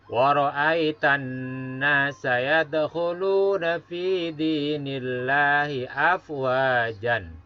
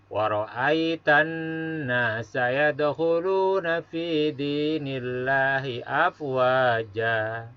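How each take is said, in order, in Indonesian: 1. Kata terakhir berakhir dengan bunyi n. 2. Kata terakhir berakhir dengan vokal panjang, tanpa bunyi n.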